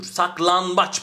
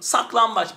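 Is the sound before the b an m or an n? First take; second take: n; m. First: An n sound comes right before the b. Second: An m sound comes right before the b. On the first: The speaker calls it wrong. "Bak karıştı gitti. Zorlandım" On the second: The speaker calls it right. "Ama M yapsam şunu. ... Bir çırpıda"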